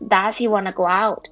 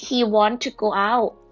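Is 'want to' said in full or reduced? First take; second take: reduced; full. First: Want to is run together quickly as wanna. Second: Want and to are said as two full words.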